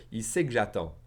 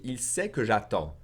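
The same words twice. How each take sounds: First: "que" reduced to a slight g before "j'attends"; swallowed que. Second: Said in the usual way. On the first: Shown as a demonstration. Teacher saying it faster, "que" swallowed into a slight g. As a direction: drop the vowel of "que": sait-g-j'attends. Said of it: "kind of swallow that que". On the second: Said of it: "If I say it faster".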